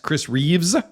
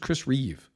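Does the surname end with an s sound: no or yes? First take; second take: yes; no. First: The surname ends with an added s sound. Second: The surname ends without any s sound. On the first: The speaker calls it wrong. "Everybody adds an S" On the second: The speaker calls it right. "It's just Chris Reeve"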